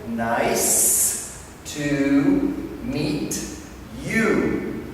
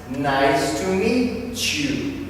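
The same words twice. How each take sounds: First: The t and y are said separately. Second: The t and y blend into a ch sound. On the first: "nice and slowly" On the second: "the T and the Y go together. Ch"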